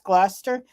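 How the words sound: It is said the Massachusetts way.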